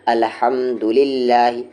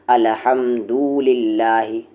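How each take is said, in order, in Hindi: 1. 'du' अक्षर छोटा और जल्दी बोला जाता है। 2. 'du' अक्षर को लंबा खींचकर बोला जाता है। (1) "दू को वहाँ जल्दी पढ़ना है" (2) "आप खींच दे ... गलत है"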